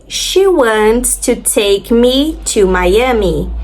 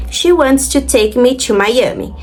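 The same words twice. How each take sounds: First: Slow, careful English model reading; a teacher reading the example sentence very slowly. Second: Said in the usual way. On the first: Shown as a demonstration. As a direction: spell it out slowly for learners. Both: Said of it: "a primeira delas".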